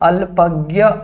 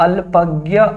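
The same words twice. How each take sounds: First: The cluster is pronounced the Hindi way. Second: The cluster is pronounced the Hindi way.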